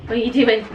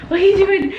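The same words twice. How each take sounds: First: Said in the usual way. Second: High-pitched, louder, laughing at the dog; high laughing puppy talk. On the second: Real, not acted. Owner to her crazy puppy, high and laughing. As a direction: squeal it at the wriggling puppy.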